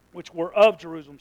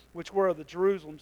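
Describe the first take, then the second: First: OF punched louder than the words around it; stress on OF. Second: Said in the usual way. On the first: Real, not acted. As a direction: reread it, leaning on "of". Corrects the misread verse.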